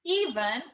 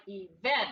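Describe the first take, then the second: First: Event as EE-vent, long E stressed; stress on first syllable. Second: Event as ee-VENT, weight on VENT; lower-pitched event, second syllable stressed. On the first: Teacher recaps the first try, stress on first syllable. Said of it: "So we tried". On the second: Teacher recaps the third try, stress on second syllable. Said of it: "and then we tried". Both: Shown as a demonstration.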